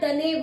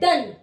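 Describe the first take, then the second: First: The word ends with an added 'eh' vowel. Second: The word ends on the 'n' with no vowel. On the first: The speaker calls it wrong. "ना डने बोलते हैं" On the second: The speaker calls it right. "हम इसे बोलते हैं डन"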